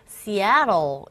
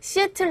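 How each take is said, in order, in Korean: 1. 두 번째 음절에 강세가 있고, T는 부드러운 R 소리로 나요. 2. 각 음절을 고르게 따로 읽어요. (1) "이 부분에 강세를 주고 T 사운드가 모음 사이에 있기 때문에 R에 가까운 현상이 일어나서" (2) "글자 그대로 또박또박 읽으면 시애틀이에요"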